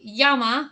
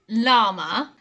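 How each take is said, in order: First: The word begins with a Y sound. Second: The word begins with an L sound. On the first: This is the Spanish pronunciation. "in Spanish it would be llama because the L L creates a y sound" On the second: This is the English pronunciation. "we pronounce this llama"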